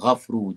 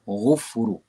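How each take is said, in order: First: The first vowel is a. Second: The first vowel is u. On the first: The speaker calls it right. "agar kita baca ghafru" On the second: The speaker calls it wrong. "jangan baca ghufru"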